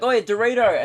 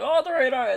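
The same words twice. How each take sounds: First: Higher, louder teasing call offering Dorito; luring a shark. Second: Much higher, excited squeal at Dorito; a greedy shark spotting a treat; delighted dumb shark. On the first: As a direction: wave a snack and call it out to the shark. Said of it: "You're like". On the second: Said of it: "he's like". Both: Pretend.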